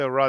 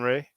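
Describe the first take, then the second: First: The name ends in an open 'ah' vowel. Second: The name ends in an 'ay' vowel. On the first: The speaker calls it right. "It's better to say Ra" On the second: The speaker calls it wrong. "than Re"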